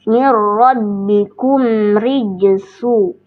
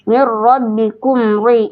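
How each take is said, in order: First: "mir rabbikum rijsu" slow, with a thin light "ri"; correct reading. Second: "Mir rabbikum ri" with a thick, heavy "ri"; wrong old reading. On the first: Teacher giving the proper recitation after the wrong one. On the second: Teacher showing her old wrong reading, slowly. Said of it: "harusnya mir rabbikum rijsu". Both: Shown as a demonstration.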